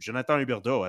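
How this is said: The name is said with a Quebec French accent.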